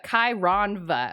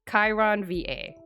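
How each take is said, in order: First: The ending is blended into one syllable. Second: The ending is spelled out as two letters. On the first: The speaker calls it wrong. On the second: The speaker calls it right.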